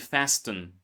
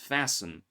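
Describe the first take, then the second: First: The t in the middle is pronounced. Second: The t in the middle is silent. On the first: The speaker calls it wrong. "Don't say fasten" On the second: The speaker calls it right. "it's fasten"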